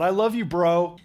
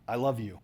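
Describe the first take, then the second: First: Louder, casual bro-style I love you, bro; a light hint of a casual dude voice; mock bro. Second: Said in the usual way. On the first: Shown as a demonstration. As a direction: toss it off like a buddy.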